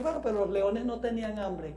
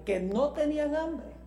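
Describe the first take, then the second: First: Said in the usual way. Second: Higher-pitched, disbelieving echo; incredulous echo. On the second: Acted. Preacher answering a doubter about the lions, incredulous echo. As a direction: throw it back, raised in mock disbelief.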